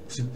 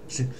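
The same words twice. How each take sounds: No difference in how they are said.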